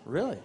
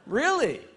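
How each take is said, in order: First: It sounds flat and expressionless. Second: It sounds excited and delighted.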